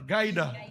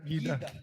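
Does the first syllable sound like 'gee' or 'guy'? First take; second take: guy; gee. First: The first syllable sounds like 'guy'. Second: The first syllable sounds like 'gee'. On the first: "Para guide" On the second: "Bisaya man ko, sir, kaya GIDA"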